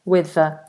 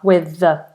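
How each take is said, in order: Both takes have the same delivery.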